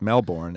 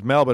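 First: The r in the middle is clearly pronounced. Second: The r in the middle is silent. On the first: The speaker calls it wrong. "it's not pronounced Melbourne" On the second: The speaker calls it right. "The old silent R in the middle of the word"

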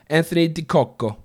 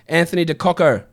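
First: The name is said in an Italian accent. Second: The name is said in a plain accent. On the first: "Should I try it Italian?" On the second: "I'm sure that's not pronounced right"

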